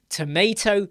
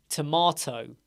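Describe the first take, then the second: First: "tomato" with the middle a as in day, tə-MAY-to; American tomato. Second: "tomato" with a broad open middle a, tə-MAH-to; British tomato. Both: Shown as a demonstration.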